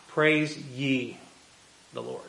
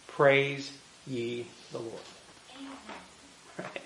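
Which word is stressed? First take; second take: ye; Praise. First: The word ye is given strong stress. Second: The word ye is not given extra stress. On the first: The listeners themselves are called to praise. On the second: It is a general call to praise.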